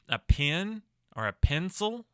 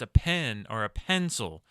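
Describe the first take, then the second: First: The vowel in 'pen' sounds like 'pin'. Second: The vowel in 'pen' sounds like 'pen'. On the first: The speaker calls it wrong. "a lot of Americans will make the E and the I interchangeable" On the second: The speaker calls it right. "No, it's a pen or a pencil. It's a big difference"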